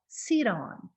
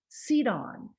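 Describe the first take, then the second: First: The t is a quick flap, like d. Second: The same.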